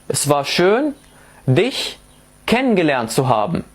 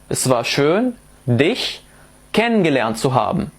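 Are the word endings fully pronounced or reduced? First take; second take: reduced; reduced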